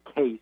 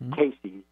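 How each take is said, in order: First: The name is said as one syllable. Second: The name is said as two syllables. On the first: The speaker calls it wrong. "A lot of people mispronounce it. They just call it Edgar Case" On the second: The speaker calls it right. "But it's Casey"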